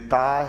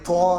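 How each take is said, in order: First: The letter is said thin and light, like 'ta'. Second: The letter is said full and heavy, like 'to'. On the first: The speaker calls it right. "ये हरफ बारीक है" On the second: The speaker calls it wrong. "फिर वो तो हो गया"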